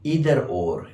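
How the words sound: It is pronounced the American way. "Americans say either or"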